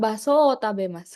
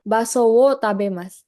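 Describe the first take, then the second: First: "wo" said as a plain o, "baso o tabemasu"; the easy everyday reading; natural particle. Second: "wo" said fully with the w, as "baso wo tabemasu"; the harder, literal reading; spelled-out particle. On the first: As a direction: drop the w and say "wo" as o. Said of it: "lebih gampang". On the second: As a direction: pronounce "wo" with a clear w sound. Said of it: "Baso wo itu lebih susah". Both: Shown as a demonstration.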